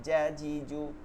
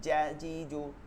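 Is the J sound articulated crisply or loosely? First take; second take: crisply; crisply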